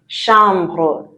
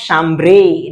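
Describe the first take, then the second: First: The final E is left silent. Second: The final E is pronounced aloud. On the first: The speaker calls it right. "you don't sound the E" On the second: The speaker calls it wrong. "I know some of you like pronouncing the last letters. It's not chambre"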